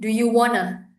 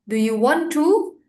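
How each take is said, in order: First: Want and to are linked and reduced into wanna. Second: Want and to are said as separate full words. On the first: "kamu gabungin aja. Jadi do you wanna" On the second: "bukannya bilang do you want to"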